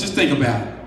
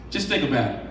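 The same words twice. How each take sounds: First: Said in the usual way. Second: Dropped low and soft to a near hush; softly, letting the congregation reflect; quiet. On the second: Shown as a demonstration. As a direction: pull the volume right down, intimate. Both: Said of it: "repeated softer".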